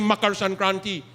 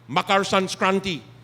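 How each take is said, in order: First: No s sound is heard before the k. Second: An extra s sound is heard before the k. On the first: The speaker calls it right. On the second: The speaker calls it wrong.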